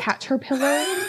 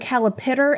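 First: The consonant sounds are in the usual order. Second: The middle consonant sounds are swapped around. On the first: The speaker calls it right. "and not a caterpillar" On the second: The speaker calls it wrong. "I call it a calipitter"

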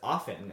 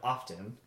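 First: The T sound is silent. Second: The T sound is clearly pronounced. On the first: The speaker calls it wrong. "Sarah says often" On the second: The speaker calls it right. "The T isn't silent and it shouldn't have been dropped"

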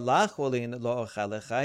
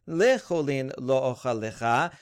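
First: The first word begins with an 'a' vowel. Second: The first word begins with an 'e' vowel. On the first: The phrase is read as a negative. The speaker calls it wrong. "although we were reading it before" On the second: The negative is taken out of the phrase. The speaker calls it right. "no, read this"

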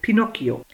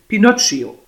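First: The middle consonant sounds like a hard 'k'. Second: The middle consonant sounds like a soft 'tch'. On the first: The speaker calls it right. "Weil das H das C erhärtet, so wie bei Pinocchio" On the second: The speaker calls it wrong. "Der heißt ja schließlich nicht Pinocchio"

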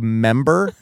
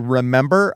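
First: The first syllable is dropped, leaving two syllables. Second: The word is said in full with three syllables. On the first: "I say member" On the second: "When I say remember"

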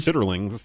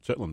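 First: The word is said in full, in three syllables. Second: The word is said short, in two syllables. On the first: "If you pronounce it like it is on the plastic bin that they come in" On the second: "not if you're used to saying, you know, chitlins all the time"

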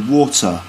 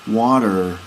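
First: The word ends with no r sound. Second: The word ends with a rounded r sound. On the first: "in England or in Britain we don't really do that. We just say water" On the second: "we say water in America, water. So there's definitely a rounded R sound"

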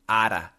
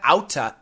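First: The t is a quick flapped, d-like sound. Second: The t is pronounced as a clear t. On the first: The speaker calls it right. "it is ara" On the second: The speaker calls it wrong. "the pronunciation is not outa"

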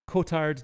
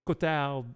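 First: The name is said with an English pronunciation. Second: The name is said with a French pronunciation. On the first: "Cotard delusion is how I'll go by" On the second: "It's French, so I think it's probably Cotard delusion"

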